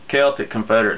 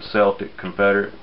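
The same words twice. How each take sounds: First: Celtic begins with a hard K sound. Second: Celtic begins with a soft S sound. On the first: This is the intended pronunciation. The speaker calls it right. "get it right" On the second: This is the sports team pronunciation. The speaker calls it wrong. "Some people some people pronounce it Celtic Confederate, but they've been watching basketball too much"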